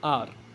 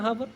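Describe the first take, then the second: First: The word begins directly with a vowel. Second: The word begins with an h sound. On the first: The speaker calls it right. "आर होता है इसका pronunciation" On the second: The speaker calls it wrong. "बचपन में इसको हावर पढ़ते थे ना"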